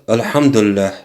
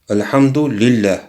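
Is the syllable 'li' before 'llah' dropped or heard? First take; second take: dropped; heard. First: The syllable 'li' is dropped, merging both words. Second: The syllable 'li' is heard before 'llah'. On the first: Praise is God. The speaker calls it wrong. "Многие мусульмане не могут его произносить. Например, говорят альхамдуллях" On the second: Praise belongs to God. The speaker calls it right. "Правильно произносить его, разделять вот эти два слова"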